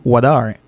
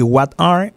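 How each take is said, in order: First: "what are" with the T as a quick D; flat T. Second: "what are" with a clear T; as written. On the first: Teacher showing learners the American accent, flat T. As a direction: run "what are" together like "wada". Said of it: "on dit what are". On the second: Teacher showing learners how it is written, fully pronounced. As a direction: say "what are" as spelled, crisp T between the words. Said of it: "moi, écrit". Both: Shown as a demonstration.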